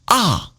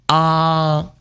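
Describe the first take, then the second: First: The pitch falls sharply from high to low. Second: The pitch stays high and level. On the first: "And fourth tone falling" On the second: "First tone high"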